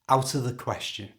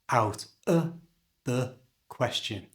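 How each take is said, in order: First: The phrase is said at normal conversational speed. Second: The phrase is said slowly and carefully. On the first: "And at normal speed" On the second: "Say this with two schwa sounds, like this"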